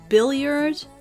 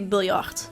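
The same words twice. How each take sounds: First: The word is said with an English pronunciation. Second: The word is said with a Dutch pronunciation. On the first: "I'm not quite sure how you pronounce it in English" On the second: "I'll just pronounce it the, the Dutch way"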